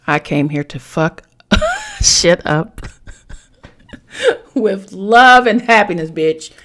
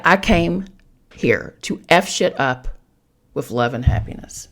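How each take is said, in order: First: Loud, slow, laughing emphatic read; reading the card out. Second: Said in the usual way. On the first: Shown as a demonstration. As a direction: belt the card's words out between laughs. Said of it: "the card says this". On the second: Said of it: "But yeah".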